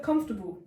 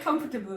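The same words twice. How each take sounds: First: Said in the usual way. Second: COMFORTABLE sounded out syllable by syllable, com-for-ta-ble; mispronounced COMFORTABLE. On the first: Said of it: "I struggled as well". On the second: Retold or imitated. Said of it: "the whole class started laughing".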